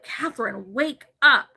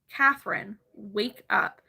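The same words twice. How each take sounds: First: It is yelled loudly. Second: It is said in a normal, quiet voice.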